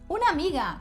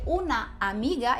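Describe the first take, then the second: First: The two A sounds merge into one. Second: Both A sounds are said separately. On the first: "como se fosse um A apenas" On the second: "Se eu for dizer una amiga"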